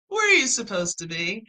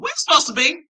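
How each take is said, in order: First: It is said in a soft, loving tone. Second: It is said in a firm, emphatic tone. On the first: The asker cares about the child. "Sometimes it's spoken lovingly" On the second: The asker is confronting the child. "Put a little emphasis in my voice"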